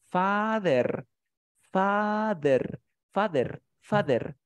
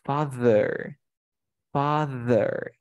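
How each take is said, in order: First: "Father" with a Spanish D instead of th; "Father" the Spanish-speaker way, D for th; father with a hard D. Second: "father" with the tongue between the teeth, American style; "father" with voiced th instead of D; father with buzzed th. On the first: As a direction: say "Father" with a plain D and a rolled final r. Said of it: "Si yo pronunciase con la D sería así". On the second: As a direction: stretch a vibrating th in the middle of "father". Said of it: "voy a hacer el truco de la lengua entre dientes". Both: Shown as a demonstration.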